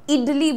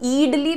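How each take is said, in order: First: The first vowel is a short i. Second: The first vowel is a long ee. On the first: The speaker calls it right. "जैसे इडली बोलते हो" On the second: The speaker calls it wrong. "ईडली तो नहीं बोलते"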